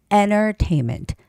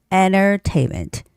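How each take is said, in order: First: The middle T is dropped, leaving an N. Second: The middle T is dropped, leaving an N.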